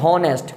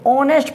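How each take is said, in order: First: The word begins with an audible h sound. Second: The word begins with a vowel, no h sound. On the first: The speaker calls it wrong. "ना कि हॉनेस्ट" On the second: The speaker calls it right. "इसको ऑनेस्ट पढ़ते"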